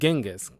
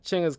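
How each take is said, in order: First: It begins with a hard 'g' sound. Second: It begins with a 'ch' sound. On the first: The speaker calls it wrong. "instead of the hard G sound" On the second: The speaker calls it right. "like a cha"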